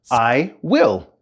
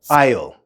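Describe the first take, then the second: First: It is said as two separate full words. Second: It is said as one contracted syllable.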